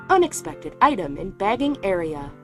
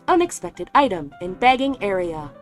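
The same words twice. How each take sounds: No difference in how they are said.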